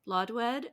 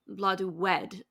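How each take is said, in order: First: The W sound is light and barely heard. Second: The W sound is clearly and fully pronounced.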